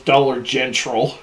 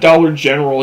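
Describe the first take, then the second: First: General is said with a t sound inserted. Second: General is said without a t sound. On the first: "it's Dollar Gentral" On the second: "it's not Dollar General"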